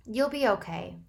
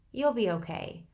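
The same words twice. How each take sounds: First: Fake cheerfulness. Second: Firm. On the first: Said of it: "I said with fake cheerfulness". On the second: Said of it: "I repeated firmly". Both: A narrator's reading.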